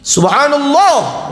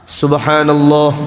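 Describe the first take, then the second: First: It is said in an expressive, calling tone. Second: It is said in a flat, even tone. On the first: It is said to communicate with the imam. The speaker calls it wrong. "tidak boleh Bapak Ibu, datar zikir" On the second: It is said as remembrance of God. The speaker calls it right. "Dan itu harus datar, niatnya zikir"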